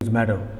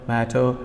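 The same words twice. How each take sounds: First: It is said with an American accent. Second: It is said with a British accent. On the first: "in American English, it becomes matter" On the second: "in British English, it is matter"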